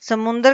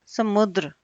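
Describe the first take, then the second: First: समुद्र as "samundar"; wrong nasal form. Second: समुद्र as "samudr"; no n, d joined to r in समुद्र; correct form. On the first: Teacher shows wrong समुद्र, said "samundar". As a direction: add n and a vowel before r in समुद्र. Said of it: "ये अशुद्ध रूप है". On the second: Teacher gives correct समुद्र, said "samudr". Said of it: "सही शुद्ध रूप क्या आएगा?". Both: Shown as a demonstration.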